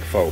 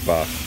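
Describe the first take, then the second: First: The vowel sounds like the one in phone. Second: The vowel does not sound like phone. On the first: The speaker calls it wrong. "it looks like pho, P-H-O, like phone book" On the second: The speaker calls it right. "but it's pronounced pho"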